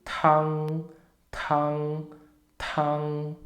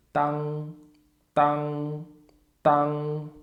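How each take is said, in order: First: "tan" with a breathy burst on the t; aspirated tan. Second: "tan" with a plain t and no puff; unaspirated tan. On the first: Teacher showing learners the aspirated "tan". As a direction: blow out the t of "tan". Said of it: "Se for com T de tatu". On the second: Teacher showing learners the unaspirated "tan". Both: Shown as a demonstration.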